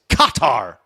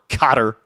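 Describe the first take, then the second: First: Both syllables are stressed equally. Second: The stress falls on only one syllable. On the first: The speaker calls it right. "where the accent's on both syllables" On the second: The speaker calls it wrong. "or Qatar"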